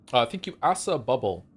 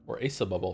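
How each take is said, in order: First: Asa said as "ASS-uh", short a like cat; first try: "Asa" with an open a vowel. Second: Asa said as "AY-suh", long a like say; second try: "Asa" starting with the ay sound. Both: Shown as a demonstration. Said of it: "Is it Asa or Asa?".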